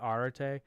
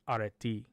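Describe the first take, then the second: First: It follows the ancient Greek pronunciation of the vowels. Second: It follows the modern Greek pronunciation of the vowels. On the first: The speaker calls it wrong. "I looked at the ancient Greek alphabet pronunciation, and that's where I came up with arete" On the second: The speaker calls it right. "according to Papa D, who's from Greece, it's areti"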